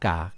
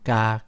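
First: The syllable is said with a low tone. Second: The syllable is said with a level mid tone. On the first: "เอก" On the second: "สามัญ"

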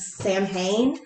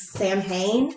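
First: The name is said the commonly seen way. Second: The same.

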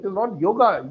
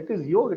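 First: The word ends with an added a vowel. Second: The word ends on the consonant g. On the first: This is the altered form of the word. The speaker calls it wrong. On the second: This is the original form of the word. The speaker calls it right.

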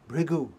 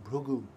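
First: The name is said the usual way. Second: The name is said the Telugu way.

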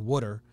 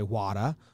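First: It is said in a Philadelphia accent. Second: It is said in a Boston accent. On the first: "If you're from Philly, you say water with two O's" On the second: "If you're in Boston, you say wada with an H"

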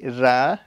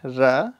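First: The vowel is a thin, open 'ah'. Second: The same.

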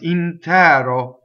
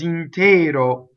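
First: The stressed e is an open vowel. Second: The stressed e is a closed vowel. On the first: This is the old-fashioned pronunciation. "open e, and probably in Verdi's day it was intero" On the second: This is the modern pronunciation. "Now everybody in the world says intero"

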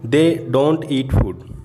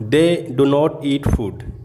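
First: The words 'do not' are contracted to 'don't'. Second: The words 'do not' are said in full.

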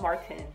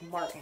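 First: The T in the middle is clearly pronounced. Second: The T in the middle is dropped. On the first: The speaker calls it wrong. "It's not Martin" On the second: The speaker calls it right. "why is she not pronouncing the T in Martin? But that's how you pronounce Martin"

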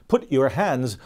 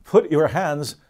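The two takes are said the same way.

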